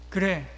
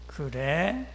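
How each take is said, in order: First: It sounds like willing agreement. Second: It sounds doubtful and questioning.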